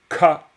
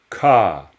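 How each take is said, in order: First: It is breathy and said on a high pitch. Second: It is breathy and said on a low pitch. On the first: "c'est un vrai expiré" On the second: "c'est un son expiré bas"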